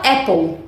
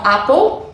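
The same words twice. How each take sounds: First: "apple" with the flat A of "cat"; American "apple", short open E-like A; American pronunciation. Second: British "apple" with an open A as in "father"; "apple" as AH-pol; British pronunciation. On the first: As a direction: say "apple" as EH-pol, American style. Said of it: "e a gente fala apple". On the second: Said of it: "No inglês britânico". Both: Shown as a demonstration.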